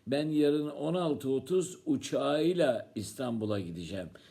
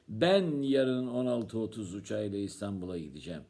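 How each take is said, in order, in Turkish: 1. 'uçağıyla' kelimesi vurgulanıyor. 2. 'Ben' kelimesi vurgulanıyor. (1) "Sen yarın neyle gideceksin İstanbul'a?" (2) "Kim gidecek?"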